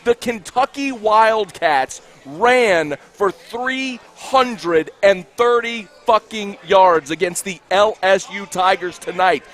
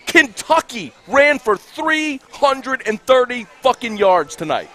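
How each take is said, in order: First: Very slow, each word separately punched; slow, emphatic repeat. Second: THREE HUNDRED AND THIRTY hit hard, word by word; pitched up, punching "three hundred and thirty"; emphatic outrage. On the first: Angry host repeating the rushing total so everybody hears, slow emphatic delivery. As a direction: spell it out slowly for everybody, exasperated. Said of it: "say that more slowly so everybody can hear me". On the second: Host furious at Kentucky's rushing yards, emphatic outrage. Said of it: "say that more slowly". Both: Real, not acted.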